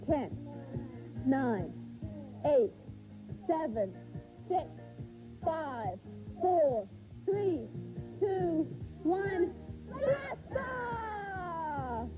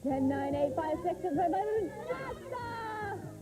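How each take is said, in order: First: The countdown is said at normal speed. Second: The countdown is said fast.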